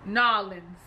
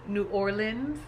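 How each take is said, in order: First: The name is clipped and run together. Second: The name is said as separate full words. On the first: This is how locals from there say it. "that twang and that accent from Nolans" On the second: This is how an outsider says it. "I say New Orleans"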